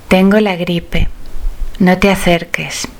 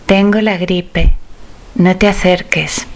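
No difference in how they are said.

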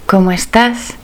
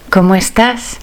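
No difference in how they are said.

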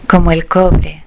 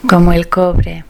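The two takes are said the same way.

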